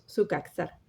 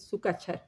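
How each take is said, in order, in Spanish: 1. La consonante del medio es un sonido al estilo español, no 'ch'. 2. La consonante del medio se pronuncia como 'ch'. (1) "lo castellanizamos y decimos su caxar" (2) "Cuando tienen C Z, la pronunciación es che"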